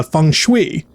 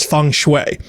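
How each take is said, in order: First: "feng shui" said slowly as fung shwee. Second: "feng shui" said fung shway, shway rhyming with way; "feng shui" slowly as fung shway. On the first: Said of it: "somebody pronounced it, uh, feng shui". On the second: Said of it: "somebody pronounced it". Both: Shown as a demonstration.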